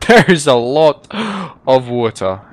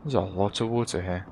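First: Loud, slow stress on "lot"; "lot" hit hard, then a short break; emphatic repeat. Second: Low, soft aside; understated, low-voiced observation; quiet remark. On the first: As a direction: punch out "There is a lot", slowly and loudly. Emphatic repeat of his remark. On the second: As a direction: say it quietly to yourself. Muttered remark, then emphatic repeat. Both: Real, not acted.

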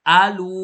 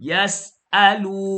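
First: อาลู said clearly after a break from ยัส; correct split reading. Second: ยัสอาลู run together as one word; wrong joined reading. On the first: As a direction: separate ยัส and อาลู cleanly. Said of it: "ยัส อาลู". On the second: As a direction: say ยัสอาลู without the break, as the mistake. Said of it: "อย่ายัสอาลู นี่ไม่เอานะครับ". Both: Shown as a demonstration.

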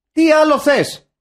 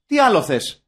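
First: High, loud exasperated repeat; exasperated shout. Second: Rhetorical question with a falling end; mild exasperation. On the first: Host repeating his question for effect, exasperated shout. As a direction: hammer the question home, much louder and higher. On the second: Host summing up the film's simple offer, mildly exasperated. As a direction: ask it as if it were obvious. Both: Acted.

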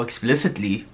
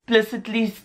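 First: "explicitly" with the full "ex" at the front; lower, self-correcting "explicitly", every syllable there; corrected word. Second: "Explicitly" with its first syllable swallowed; stumbled word. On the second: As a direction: say "Explicitly" as if starting at "plicitly". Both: Real, not acted. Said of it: "oh, explicitly".

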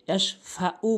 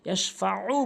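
First: ইয়াশফাউ with a light plain "u"; hamza for ayn. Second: ইয়াশফাউ with "u" squeezed from mid-throat; slow ইয়াশফাউ, constricting the throat before the last vowel; throaty ayn. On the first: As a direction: say ইয়াশফাউ with no squeeze in the throat. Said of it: "আইনের জায়গায় হামজা এনে উচ্চারণ করে". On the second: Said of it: "বলতে হবে". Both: Shown as a demonstration.

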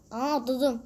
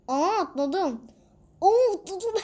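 First: Said in the usual way. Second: Much higher, louder, laughing cry; excited laughing. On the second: Real, not acted. Gamer thrilled at a jump, high loud laughing cry. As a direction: burst out laughing as you jump.

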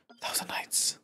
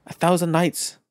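First: Whispered A thousand nights. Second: Said in the usual way. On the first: Shown as a demonstration. Gamer whispers the page title to himself. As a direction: breathe A thousand nights softly. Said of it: "repeats title whispered". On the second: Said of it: "repeats title".

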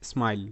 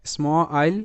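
First: Said in the usual way. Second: "স্ম আইল" split after the cluster স্ম; sounded out in parts. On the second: Shown as a demonstration. Teacher blending a consonant cluster for beginners, "স্ম আইল" sounded out. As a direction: say স্ম, then আইল as its own part. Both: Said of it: "এস এম স্বয়ম যুক্তবর্ণ".

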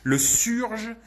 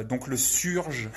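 First: Le surge said high and loud, set against the French syrj; Le surge, loud and high, not the French syrj; corrected pronunciation. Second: Frenchify the word surge, syrj; le surge read as a French word, syrj; French pronunciation. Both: Shown as a demonstration. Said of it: "J'aime bien faire les accents français des fois".

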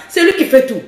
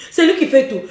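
No difference in how they are said.

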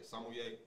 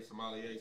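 First: Sommelier said sah-mee-AY, with the L dropped; alternate pronunciation. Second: Sommelier said suh-MAH-lee-ay, with the L sounded; alternate pronunciation. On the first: Explaining how others say it, sommelier as sah-mee-AY. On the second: Explaining how some people say it, sommelier as suh-MAH-lee-ay. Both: Shown as a demonstration. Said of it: "some people say".

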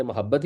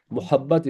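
First: "محبت" as ma-HAB-bat; original pronunciation. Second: "محبت" as mu-HAB-bat; short "mu" at the start of "محبت"; common Urdu pronunciation. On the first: Teacher shows poets' form, "محبت" as ma-HAB-bat. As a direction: open "ma" at the start of "محبت". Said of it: "شاعر ویسے محبت ہی استعمال کرتے ہیں". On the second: Teacher shows the everyday form, "محبت" as mu-HAB-bat. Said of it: "لیکن جنرلی اس کے لیے اب لفظ محبت". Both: Shown as a demonstration.

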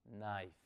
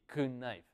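First: KNIFE with silent k, starting on n, "nife"; correct silent k. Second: KNIFE mispronounced with the k sounded, "kih-nife"; wrong pronunciation. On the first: Teacher modelling it for learners, KNIFE said as "nife". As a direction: drop the k and say KNIFE as "nife", softly. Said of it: "Omitámosle el sonido de la K y simplemente digamos". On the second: Teacher demonstrating the error to learners, KNIFE said as "kuh-nife". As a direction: put a k and a short vowel before the n in KNIFE. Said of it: "no le pronunciamos así". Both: Shown as a demonstration.

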